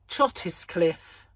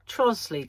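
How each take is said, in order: First: The name is said in three full syllables. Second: The name is said in two short syllables. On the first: This is how outsiders read the spelling. The speaker calls it wrong. "We don't say that" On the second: This is how local people say it. The speaker calls it right. "We call it Trosley"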